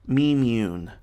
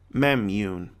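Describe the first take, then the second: First: The first vowel is long, like 'me'. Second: The first vowel is short, like 'meh'. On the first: "open syllable, meaning it will be pronounced long" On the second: "makes the first syllable closed, pronounced short"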